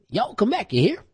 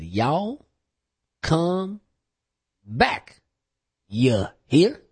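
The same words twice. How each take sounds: First: It is said at a fast pace. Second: It is said at a slow pace.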